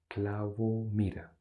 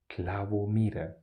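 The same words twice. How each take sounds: First: Said in the usual way. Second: Whispered. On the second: Shown as a demonstration. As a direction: whisper it, voiceless and hushed. Repeats letter meanings, whispered. (susurrado, sin voz)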